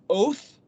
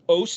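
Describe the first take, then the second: First: The word ends with a th sound. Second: The word ends with an s sound. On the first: "pronounced oath if you give the th value to the tav"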